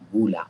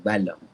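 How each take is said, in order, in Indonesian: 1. Vokal pertama adalah bunyi 'u' bulat. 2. Vokal pertama adalah bunyi 'a' terbuka. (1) "tapi yang kita baca baris hadapan bul'a" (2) "supaya kita tidak baca baris atas bal"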